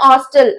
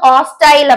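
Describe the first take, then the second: First: The second syllable is a short 'tull'. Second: The second syllable rhymes with 'tile'. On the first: This is the American pronunciation. "American இங்கிலீஷ்ல ஹாஸ்டல் அப்படின்னு சொல்லுவாங்க" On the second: This is the British pronunciation. "British இங்கிலீஷ்ல வந்து ஹாஸ்டைல் அப்படின்னு சொல்லுவாங்க"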